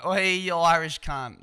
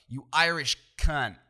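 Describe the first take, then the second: First: Loud, higher Australian hollering; Australian accent. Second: Loud, slow American-accented insult. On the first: Showing how the insult sounds fine at home, loud Australian accent. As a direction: call it out in a broad Australian voice. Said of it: "it's fine in our voice". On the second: Showing how the insult sounds worse, loud American accent. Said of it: "in the American accent sounds way worse". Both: Shown as a demonstration.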